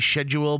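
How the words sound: It is said with a British pronunciation.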